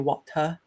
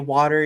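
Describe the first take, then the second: First: Water is said in a British accent. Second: Water is said in an American accent. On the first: "you say water" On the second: "where we say water"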